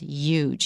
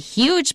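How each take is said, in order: First: It is said in a New York way. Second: It is said in a general American way. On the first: "my brother-in-law says huge" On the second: "I say huge"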